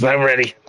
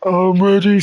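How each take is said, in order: First: Eager, raised character voice; Kraz. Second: Very high, loud character voice; Dole. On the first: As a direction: insist eagerly in a higher voice. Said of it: "And Kraz goes". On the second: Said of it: "And Dole just goes". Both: Acted.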